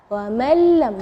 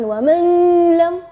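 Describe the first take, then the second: First: The n merges into the l, no n heard. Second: The n is pronounced clearly before the l. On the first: The speaker calls it right. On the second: The speaker calls it wrong. "jangan wa man lam. Uh, itu salah. Atau wa man lam itu jadi jelas"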